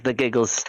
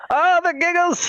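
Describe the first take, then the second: First: Said in the usual way. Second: Squeaky, higher and louder exclamation; mock giggle voice. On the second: Laughing at his own giggles, high and louder. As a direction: hit the oh up high and loud.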